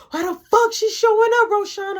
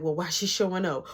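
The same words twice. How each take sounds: First: Put-on high, loud, outraged girlfriend; mock furious shouting; imitated angry yell. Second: Said in the usual way. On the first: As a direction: act out demanding an answer at full pitch. Girlfriend's question escalates to yelling.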